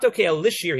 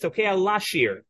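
First: The second word is said with an 'i' vowel. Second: The second word is said with an 'a' vowel. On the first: He blows the shofar in order to make music. The speaker calls it wrong. "It's not tokea lishir" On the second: He blows the shofar to accompany the temple song. The speaker calls it right. "he says, tokea lashir"

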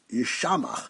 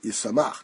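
First: The middle consonant is an sh sound. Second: The middle consonant is an s sound. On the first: The wine can make a person desolate. "it's spelled with a shin. It could be pronounced Yishamach" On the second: The wine can make a person happy. "but we do pronounce it Yisamach"

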